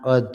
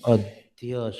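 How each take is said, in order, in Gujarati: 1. તે સાદા 'dh' થી પૂરું થાય છે, 'y' વગર. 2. 'dh' અવાજ પછી 'y' ની સરકણી ધ્વનિ આવે છે. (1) "ઘણા અધ વાંચે છે, અધ નહીં" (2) "પણ અધ્ય શબ્દ છે"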